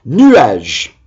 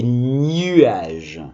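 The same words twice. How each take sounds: First: Said in the usual way. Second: "nuages" begun with a drawn-out gn, "gnuages"; wrong gn sound. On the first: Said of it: "C'est pas des nuages". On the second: Shown as a demonstration. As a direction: say "nuages" slowly as "nyu-age". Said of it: "mais pas n".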